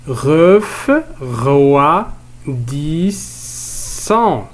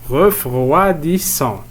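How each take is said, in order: First: "Refroidissant" in long separate beats, ref, roi, dis, sant; teacher's drawn-out split of "Refroidissant"; split into syllables. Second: Said in the usual way. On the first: Shown as a demonstration. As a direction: sound out "Refroidissant" very slowly, each syllable stretched. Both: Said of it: "On va découper ces mots en syllabes".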